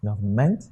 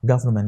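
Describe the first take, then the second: First: Government wrongly said as govern-MENT; government with the weight pushed onto -ment; stress on last syllable. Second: Government as GOV-ernment, falling; Government stressed at the start, dropping away; stress on first syllable. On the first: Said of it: "Not government". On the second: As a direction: punch GOV in Government, keep -ment weak. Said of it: "the stress is on the first word". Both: Shown as a demonstration.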